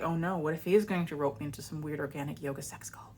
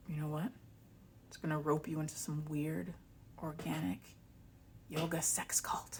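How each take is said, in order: First: Whispered, playing at dread; mock-panicked whisper. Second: Conspiratorial whisper. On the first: She jokingly entertains the cult theory, in a mock-scared whisper. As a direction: fake paranoia under the breath. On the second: Retold or imitated. Ex-partner warning her about a cult, in a whisper. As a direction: whisper it like a dark secret.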